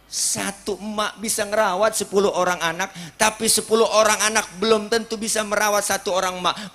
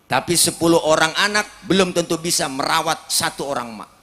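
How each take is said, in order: First: Preaching higher, louder and faster. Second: Preaching louder. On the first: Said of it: "preacher repeats the saying, louder, faster". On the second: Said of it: "preacher repeats the saying for emphasis". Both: Acted.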